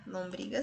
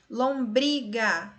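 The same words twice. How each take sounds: First: Said in the usual way. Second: Lombriga very slow, syllable by syllable, strong "bri"; slow syllable stress. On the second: Shown as a demonstration. Teacher helping students find the tonic, slow Lombriga with strong "bri". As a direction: stretch Lombriga, leaning on BRI. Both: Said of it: "Você vai pronunciar aí devagarzinho".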